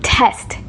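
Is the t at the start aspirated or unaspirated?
aspirated. The first t has a puff of air.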